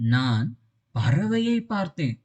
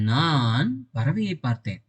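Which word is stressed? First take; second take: பறவையை; நான். First: The stress falls on the word பறவையை. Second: The stress falls on the word நான். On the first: The bird I saw was special; no one else saw it. "இந்த இடத்துல பறவையை நான் அழுத்தி சொல்றேன்" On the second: It was I, and no one else, who saw the bird. "அப்ப பறவையை பார்த்தது யாரு? நான்"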